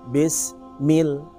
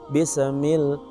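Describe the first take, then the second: First: No vowel follows the s before the pause. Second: An extra vowel is heard after the s. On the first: The speaker calls it right. "Berikan jeda sedikit" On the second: The speaker calls it wrong. "Seakan huruf sin itu menampilkan ada e"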